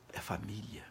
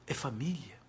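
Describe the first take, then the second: First: Much softer whispered "É família". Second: Said in the usual way. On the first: Real, not acted. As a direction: whisper "É família" as a quiet revelation. Repeated phrase, first take whispered. ("É família" sussurrado)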